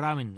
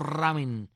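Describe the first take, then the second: First: The R is a soft, light tap. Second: The R is a strong trilled sound. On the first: The speaker calls it right. "es como ramen, así, como si fuese la R en italiano" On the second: The speaker calls it wrong. "el sonido fuerte este de la R, pues yo estoy diciendo ramen"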